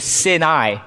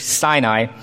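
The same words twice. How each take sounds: First: The name is said with a Hebrew-style pronunciation. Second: The name is said with the usual English pronunciation.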